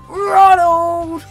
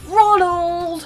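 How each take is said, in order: First: The name is called out much louder. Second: The name is called at normal loudness.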